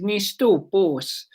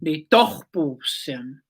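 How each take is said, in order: First: Slow "nistopos", the learner's mistake; retelling a learner's wrong word for "my cat", said slowly; wrong Blackfoot word. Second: Slow, careful "Nitohposim" with each syllable clear; correcting the learner's mistake, said slowly; correct Blackfoot word. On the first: Retold or imitated. Imitating a learner saying "nistopos" slowly. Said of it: "the fluent speakers laughed". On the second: Shown as a demonstration. Teacher slowly giving the correct "Nitohposim". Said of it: "You have to say".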